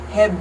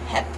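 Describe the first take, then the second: First: The final consonant is a voiced B. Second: The final consonant is a voiceless P. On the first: "instead of saying heb, heb, like you would if you were saying hebben" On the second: "you devoice the B and you turn it into a P"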